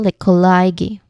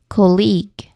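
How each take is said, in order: First: It has three syllables with a long middle vowel. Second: It has two syllables with a short first vowel. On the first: The speaker calls it wrong. "three distinct syllables with a long uh sound in the middle" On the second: The speaker calls it right. "There is like a short O sound there at the beginning"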